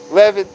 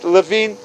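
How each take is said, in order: First: "Levin" short and clipped, LEV-in; Levin pronunciation. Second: "Levine" with a long ee, luh-VEEN; Levine pronunciation. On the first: Correcting the name for the old man, LEV-in. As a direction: say "Levin" as LEV-in, stress on the first syllable. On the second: Telling the old man his grandfather's name, luh-VEEN. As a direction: say "Levine" as luh-VEEN, stress on the second syllable. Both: Shown as a demonstration. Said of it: "Is it Levine? Is it Levin?".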